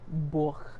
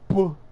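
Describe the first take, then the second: First: The word is said plainly, without extra force. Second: The word is said with strong, forceful emphasis.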